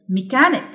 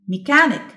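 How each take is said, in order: Both takes have the same delivery.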